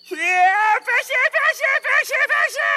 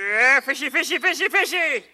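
First: It is yelled loudly. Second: It is called quietly.

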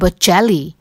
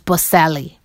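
First: The middle consonant sounds like ch. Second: The middle consonant sounds like s. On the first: The speaker calls it right. "how did C-E-L-L-I become C-H-E-L-L-I?" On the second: The speaker calls it wrong. "That's the English version of the pronunciation"

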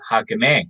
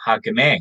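First: Some a vowels are said as eh sounds. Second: The same.

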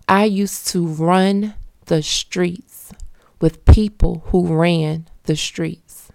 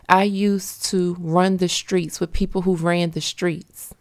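First: The sentence is spoken slowly and deliberately. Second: The sentence is spoken at a normal, quicker pace.

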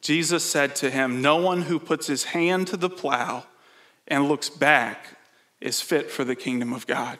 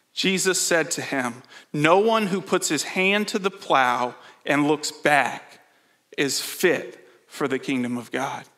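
The two takes are said the same way.

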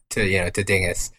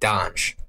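First: It is said with a Flemish-style pronunciation. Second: It is said with a French-style pronunciation. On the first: The speaker calls it right. "they corrected him to dingus ... the Flemish way" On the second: The speaker calls it wrong. "my friend would pronounce it waffles and donge ... he thought that's the French way of pronouncing it"

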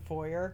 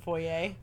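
First: It is said the plain, everyday way. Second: It is said the fancy, refined way. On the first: It refers to an ordinary, not fancy house. "if it's not fancy, it's a foyer" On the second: It refers to a big fancy house. "if it's a big fancy house, it's a foyer"

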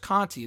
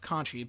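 First: The consonant before the final vowel is t. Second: The consonant before the final vowel is ch. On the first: The speaker calls it wrong. "I thought it was Conti" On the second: The speaker calls it right. "but apparently it's Conchi"

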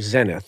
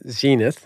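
First: It is said in a British accent. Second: It is said in an American accent.

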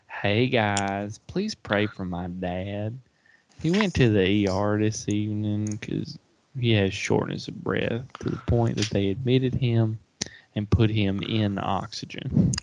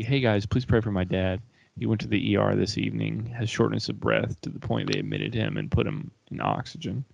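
First: It is read in a North Carolina accent. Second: It is read in the speaker's plain voice.

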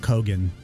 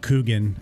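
First: The surname's first vowel is a short o. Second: The surname's first vowel is a long oo. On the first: The speaker calls it right. "it's actually Kyle Cogan" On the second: The speaker calls it wrong. "I was pronouncing it Kyle Coogan"

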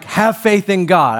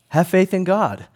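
First: It is said strongly and assertively. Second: It is said softly and without force.

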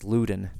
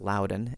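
First: The name is not said the Virginia way. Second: The name is said the Virginia way. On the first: This is how the Scottish family name is said. The speaker calls it right. "that it's Loudon" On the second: This is how the place in Virginia is said. The speaker calls it wrong. "not Loudon, as it's pronounced in Virginia"

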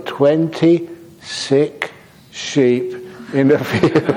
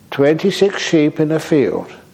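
First: The phrase is said at a slow pace. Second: The phrase is said at a quick pace. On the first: It reveals that the sheep are sick. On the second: It sounds like a number of healthy sheep.

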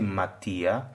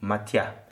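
First: The i is a full separate syllable. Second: The i glides quickly into the a. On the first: The speaker calls it wrong. "you don't say matia" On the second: The speaker calls it right. "it became like a ya. It's matia. It's very quick"

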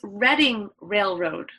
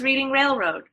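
First: The first word has a short eh vowel. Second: The first word has a long ee vowel. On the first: The speaker calls it right. "It's pronounced like that, but it's spelled like reading" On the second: The speaker calls it wrong. "I always thought it was Reading Railroad"

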